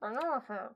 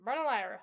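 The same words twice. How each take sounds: First: Barnalar, with the ending collapsed to "lar"; slurred short pronunciation. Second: Barnalira with every syllable sounded; full pronunciation of Barnalira. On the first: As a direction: run Barnalar together, swallowing the "ira" into an r. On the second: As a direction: say Barnalira in full, ending in "lie-ra". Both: Shown as a demonstration. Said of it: "That's how I'm going".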